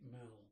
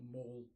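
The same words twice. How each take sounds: First: "Mall" said to rhyme with shall; Mall rhyming with pal. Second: "Mall" said like maul; Mall rhyming with hall. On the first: Offering the interviewer one way to say it, "Mall" rhyming with pal. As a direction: say "Mall" with a short flat a, like pal. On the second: Offering the interviewer the other way to say it, "Mall" rhyming with hall. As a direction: say "Mall" with a long aw vowel. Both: Shown as a demonstration. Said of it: "however you na-, like to pronounce it".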